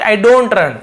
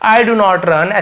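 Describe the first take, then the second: First: Do not is shortened into one syllable. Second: Do not is said as two full words. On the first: "speaking में थोड़ा आसानी हो तो short में" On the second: "ऐसे ना बोल के"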